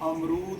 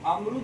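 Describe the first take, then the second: First: The second vowel is long. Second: The second vowel is short. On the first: The speaker calls it right. "होता है" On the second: The speaker calls it wrong. "नहीं होता है"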